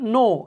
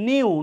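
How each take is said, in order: First: The vowel is a plain 'oo', like 'noo'. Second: The vowel has a y glide, like 'nyoo'. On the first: The speaker calls it right. "উচ্চারণটা হচ্ছে নো" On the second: The speaker calls it wrong. "আমরা প্রায়ই বলি হচ্ছে নিউ, নো it is not নিউ"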